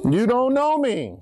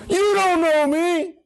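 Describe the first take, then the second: First: Said in the usual way. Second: High, slow, ringing cry of it; dramatic cry. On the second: Acted. Jesus crying out to those who doubt him, high and slow. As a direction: cry it out to the crowd.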